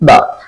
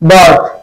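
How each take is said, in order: First: No R sound is pronounced before the th. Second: An R sound is pronounced before the th. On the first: The speaker calls it right. "আর is silent" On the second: The speaker calls it wrong. "আমরা এটাকে কি উচ্চারণ করি বার্থ"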